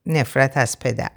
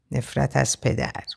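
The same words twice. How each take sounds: First: Said in the usual way. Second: Lightly murmured, softer echo. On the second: A narrator's reading. He echoes her words after a sigh, softly murmured. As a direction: murmur it quietly, as if to oneself. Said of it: "آروم زمزمه کرد".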